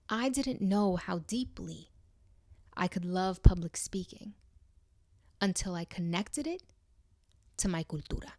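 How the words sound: It is said with deep pauses inside.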